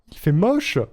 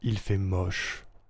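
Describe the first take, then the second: First: It is said in a higher-pitched voice. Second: It is said in a lower, normal voice.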